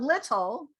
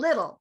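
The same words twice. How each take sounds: First: The middle T is a clear T sound. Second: The middle T is a soft D-like flap. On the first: The speaker calls it wrong. "instead of little" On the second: The speaker calls it right. "we say little ... We say a middle T"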